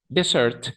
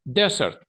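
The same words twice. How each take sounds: First: "Dessert" as de-SERT, second e stressed; second-syllable stress. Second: "Desert" as DE-sert, high first e; first-syllable stress. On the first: Teacher explaining where the accent falls, "Dessert" stressed on second syllable. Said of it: "va en la segunda E". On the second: Teacher explaining where the accent falls, "Desert" stressed up front. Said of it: "el acento va como en la primera E". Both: Shown as a demonstration.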